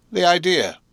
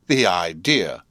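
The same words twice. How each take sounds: First: The idea said high and shocked; high exclamation. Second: The idea, said through a checked yawn; stifling a yawn. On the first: Camilla ends her complaint with a high, shocked The idea. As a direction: shriek The idea in outrage. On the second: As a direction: swallow a yawn mid-word. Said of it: "said, checking a yawn". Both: A narrator's reading.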